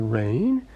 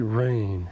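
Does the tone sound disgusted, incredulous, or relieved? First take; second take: incredulous; disgusted. First: It is said with disbelief. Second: It is said with disgust.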